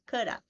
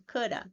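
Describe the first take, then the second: No difference in how they are said.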